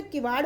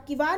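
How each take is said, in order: First: Said in the usual way. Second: किवाड़ as kivar, with plain r; wrong pronunciation. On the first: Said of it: "किवाड़ होता है". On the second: Shown as a demonstration. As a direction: end किवाड़ on a simple unflapped r. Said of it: "किवाड़ नहीं होता".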